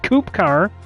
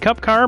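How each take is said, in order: First: The first word is said like 'coop'. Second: The first word is said like 'cup'. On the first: The speaker calls it right. "the proper pronunciation is Coupe Car" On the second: The speaker calls it wrong. "most people will say Cup Car"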